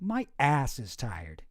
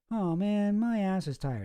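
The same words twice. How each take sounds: First: My ass is tired, slow, the A of ass hit abruptly. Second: Said in the usual way. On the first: Shown as a demonstration. Streamer demonstrating to viewers, slow with an abrupt A. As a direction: drag it out and punch the A in ass. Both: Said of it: "I can demonstrate it".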